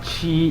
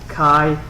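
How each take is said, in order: First: The name is said with a ch sound, Chi. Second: The name is said with a k sound, Kai. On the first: The speaker calls it wrong. "not Chi" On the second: The speaker calls it right. "It's pronounced as Kai"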